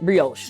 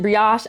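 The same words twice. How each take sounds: First: It is said with a Southern American pronunciation. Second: It is said with a French pronunciation. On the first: "I pr- pronounce it ... I am from Columbia, South Carolina" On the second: "the French pronounce it"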